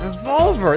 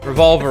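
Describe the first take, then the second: First: The word is said at a normal pace. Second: The word is said very fast.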